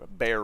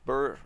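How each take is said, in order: First: The vowel sounds like 'bear'. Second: The vowel sounds like 'burr'. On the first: "bear I think is the correct pronunciation" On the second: "I've said burr since the freaking game came out"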